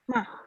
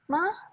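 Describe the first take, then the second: First: The pitch sounds like sulking. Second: The pitch is pushed up high. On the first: "yang kedua ma kayak ngambek" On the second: "yang keempat nada tinggi tinggi tinggi tinggikan aja"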